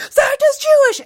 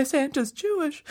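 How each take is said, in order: First: Put-on very high, loud kid's shout; loudest repeat. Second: Put-on soft, high, amazed child; first quiet repeat. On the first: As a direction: shout the news at the top of a child's voice. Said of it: "louder and louder and louder". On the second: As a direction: say it small and high, stunned. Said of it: "started repeating it louder and louder".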